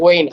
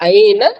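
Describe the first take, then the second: First: It is said in the Saudi dialect form, 'wein'. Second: It is said in the Standard Arabic form, 'ayna'. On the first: "இவங்க ஐன் அப்படிங்கிறதுக்கு ப்ரொனன்சியேஷன் எப்படி பண்றாங்க?" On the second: "standard அரபிக்ல"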